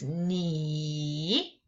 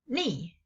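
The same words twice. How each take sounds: First: The pitch dips down and then rises. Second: The pitch falls sharply across the syllable. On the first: "It goes down and goes up" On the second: "the last one is Ni"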